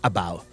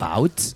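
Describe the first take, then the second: First: The final T is dropped, Manchester style. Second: The final T is clearly pronounced.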